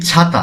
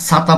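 First: ছাতা with an initial chh, as chhata; correct ছ sound. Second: ছাতা mispronounced with an s, as "sata"; wrong s sound. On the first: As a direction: start ছাতা on an aspirated chh, not s. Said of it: "যেমন আমরা বাংলাতে বলি". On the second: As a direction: start ছাতা on a hissing s instead of chh. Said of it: "আমরা ছাতা বলি না". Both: Shown as a demonstration.

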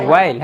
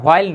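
First: "while" said wail, with no h; correct WHILE. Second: "while" said with an h, hwail; wrong WHILE. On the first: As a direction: start "while" on a clean w sound. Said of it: "উচ্চারণটা while না, বলেন তো". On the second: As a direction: breathe an h into "while": ho-ail. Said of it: "উচ্চারণটা while না". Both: Shown as a demonstration.

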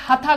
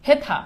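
First: হাথা with open "æ", hæ-tha; wrong pronunciation. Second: হেথা with a closed e, he-tha; correct pronunciation. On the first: Teacher shows students the impossible form, হাথা as hæ-tha. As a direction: open the first vowel of হাথা as in "hat". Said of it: "করতে পারবা না". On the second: Teacher shows the unchanged word, হেথা said he-tha. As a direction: keep the written e in হেথা. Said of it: "এটার উচ্চারণ কখনো". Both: Shown as a demonstration.

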